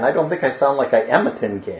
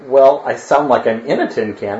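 First: I AM a tin can, am stressed. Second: Said in the usual way. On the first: Shown as a demonstration. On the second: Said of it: "Is that what you say?".

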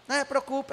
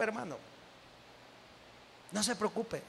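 First: Said in the usual way. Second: Softly repeated reassurance. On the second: Real, not acted.

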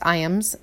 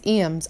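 First: Said in the usual way. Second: Iams said as EE-ams; EE-ams pronunciation. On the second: Real, not acted. Naming the cat food, Iams as EE-ams. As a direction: open Iams with a long "ee". Says brand name two ways.

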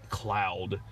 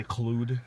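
First: Said in the usual way. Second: Clued, Cloud misread with an oo vowel; Clued with a long oo instead of ow; deliberate mispronunciation. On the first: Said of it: "what are you gonna say". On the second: Shown as a demonstration. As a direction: say Cloud wrongly as Clued, rhyming with food. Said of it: "what are you gonna say, Clued?".

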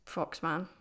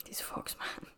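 First: Said in the usual way. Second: A mock-secretive whisper; playful whisper. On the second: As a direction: hush it like a little secret. Repeats the name, then whispers it.

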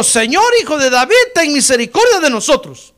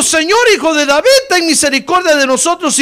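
First: Loud, high plea in preaching voice; crying out. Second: Loud plea pitched very high; shouting even more. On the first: Two blind men calling to passing Jesus, crying out. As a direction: call out for mercy, loud and raised. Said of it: "gritaron diciendo". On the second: Blind men defying the crowd that hushed them, shouting harder. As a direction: cry out harder for mercy, voice raised high. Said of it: "Pero ellos gritaban más". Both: Retold or imitated.

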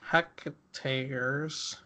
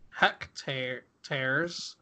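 First: "Hectares." said whole in one smooth word, quiet; corrected pronunciation. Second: "hectare-, tares" broken in two with a pause, dropping lower and softer; stumbled pronunciation. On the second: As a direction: split "hectare-, tares" into two halting pieces. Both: Real, not acted.

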